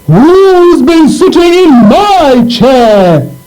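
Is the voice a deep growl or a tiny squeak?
deep growl. It is said in a deep growling voice.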